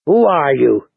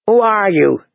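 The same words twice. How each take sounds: First: Said in the usual way. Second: Higher, firm challenge; mildly sharp demand. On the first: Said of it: "Jojen asked the girl". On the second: A narrator's reading. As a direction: demand an answer. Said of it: "she demanded".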